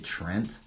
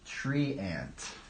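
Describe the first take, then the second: First: The name is said as one syllable. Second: The name is said as two syllables. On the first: This is the usual pronunciation. "normal people say Trent" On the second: This may be the pronunciation others use. "Maybe that's how they pronounce it"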